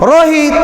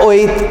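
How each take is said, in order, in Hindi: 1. शुरू का र ज़ोर से बोला जाता है। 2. शुरू का र घुट जाता है और सुनाई नहीं देता। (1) "र पर जोर मार के" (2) "इन रोहित का र घुट जाएगा"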